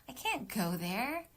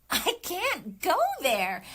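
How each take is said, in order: First: Slow, sighing and resigned; heavy-hearted read; weary sigh take. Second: Higher, louder and slow; big insistent read; emphatic take. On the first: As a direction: let the sigh carry the line. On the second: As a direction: throw it out with full force. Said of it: "So I would do". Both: Shown as a demonstration.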